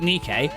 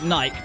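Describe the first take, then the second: First: The name is said the American way. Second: The name is said the British way. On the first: "the Americans call it Nikkei" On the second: "we call it Nike"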